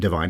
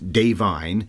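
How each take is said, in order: First: The name sounds like the word divine. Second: The name does not sound like divine. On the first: The speaker calls it wrong. "we said it wrong in the preview show, not Divine" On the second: The speaker calls it right. "it's Da'Vine"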